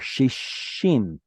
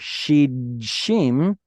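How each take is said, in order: First: The d is absorbed into a doubled sh. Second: A d sound comes before the sh. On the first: This is the actual form after assimilation. "it simply assimilates into the next letter" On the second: This is the underlying form before assimilation. "Instead of saying shidshim"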